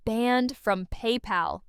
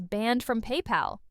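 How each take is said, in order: First: "Banned from PayPal" drawn out at half speed; slow emphatic repeat. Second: Said in the usual way. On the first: Real, not acted. Commentator underlines the ban for viewers, "Banned from PayPal" slow and emphatic. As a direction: let each word of "Banned from PayPal" land slowly.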